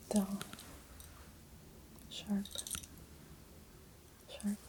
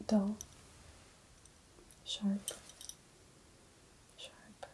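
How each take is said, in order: Both takes have the same delivery.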